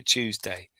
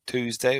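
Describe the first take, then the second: First: "Tuesday" said as CHOOZ-day. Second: "Tuesday" said as TOOZ-day, hard T and oo. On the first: Asking co-host which way to say it, "Tuesday" as CHOOZ-day. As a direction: open "Tuesday" with a "choo" sound. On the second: Asking co-host which way to say it, "Tuesday" as TOOZ-day. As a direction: open "Tuesday" with a plain "too" sound. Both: Shown as a demonstration. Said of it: "What do you say? Tuesday or Tuesday?".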